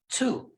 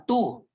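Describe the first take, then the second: First: The t is strong, with a puff of air. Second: The t is soft, without a puff of air. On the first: The speaker calls it right. "emphasize natin" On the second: The speaker calls it wrong. "Imbis na"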